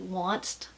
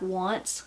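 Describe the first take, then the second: First: The word ends with an added t sound. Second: The word ends without a t sound.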